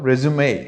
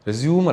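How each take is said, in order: First: The word ends with a 'may' sound. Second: The word ends without a 'may' sound. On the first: The speaker calls it right. "മേ എന്നുള്ള സൗണ്ടാണ്" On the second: The speaker calls it wrong. "റെസ്യൂം അല്ല"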